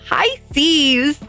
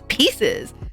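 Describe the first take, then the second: First: The word starts with 'pie', like 'PIE-sees'. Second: The word sounds like 'pieces', with 'pee'. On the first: The speaker calls it right. "she meant to say Pisces" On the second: The speaker calls it wrong. "she was adamant that it was pieces"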